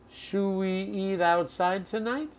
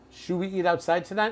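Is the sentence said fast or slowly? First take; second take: slowly; fast. First: The sentence is said slowly and deliberately. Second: The sentence is said quickly, running together.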